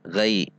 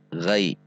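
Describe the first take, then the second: Both takes have the same delivery.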